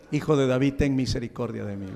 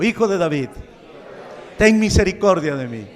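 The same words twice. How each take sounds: First: Said in the usual way. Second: Louder crying-out plea, leading the room; loud pleading cry to Jesus; congregation call. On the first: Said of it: "Cuántos quieren decir como Bartimeo". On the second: Shown as a demonstration. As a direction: call it out for everyone to repeat. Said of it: "Repita conmigo".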